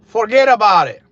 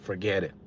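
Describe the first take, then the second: First: "Forget about it" shouted high in a Connecticut accent. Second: Said in the usual way. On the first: Real, not acted. To his viewers, a sudden loud Connecticut accent. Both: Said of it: "There goes my Connecticut accent".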